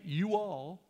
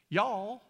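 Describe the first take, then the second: First: "You all" as two separate full words; northern "you all". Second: "y'all" merged into one drawn syllable, louder; Southern "y'all". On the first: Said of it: "they don't start saying". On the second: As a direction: run it together as "y'all", pitch lifted. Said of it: "It goes from "y'all" to "you all". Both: Shown as a demonstration.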